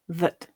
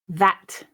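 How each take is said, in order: First: The vowel is reduced to a schwa. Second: The vowel is full and unreduced. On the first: "weak form"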